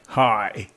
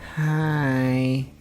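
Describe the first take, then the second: First: The greeting is said strongly, with much energy. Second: The greeting is said weakly, with little energy.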